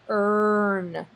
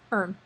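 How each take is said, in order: First: The vowel is drawn out with heavy stress. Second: The vowel is light and reduced, unstressed. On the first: The speaker calls it wrong. "we don't say earn" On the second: The speaker calls it right. "It's just earn"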